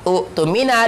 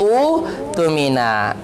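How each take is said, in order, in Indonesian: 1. Hamzah ada sebelum t. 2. Vokal panjang menggantikan hamzah. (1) "ada pertemuan dua hamzah" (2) "dibaca menjadi"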